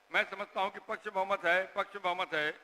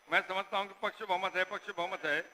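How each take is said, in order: The two takes are said the same way.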